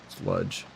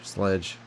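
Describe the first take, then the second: First: The vowel sounds like the u in 'mud'. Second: The vowel sounds like the e in 'bed'.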